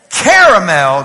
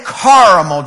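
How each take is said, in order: First: CARAMEL with first syllable like "care", loud; CARE-a-mel. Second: CARAMEL with a broad "car" first syllable; CAR-a-mel. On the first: Polling the congregation on CARAMEL, said loudly as CARE-a-mel. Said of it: "If you say". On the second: Polling the congregation on CARAMEL, said as CAR-a-mel. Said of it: "If you say caramel". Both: Shown as a demonstration.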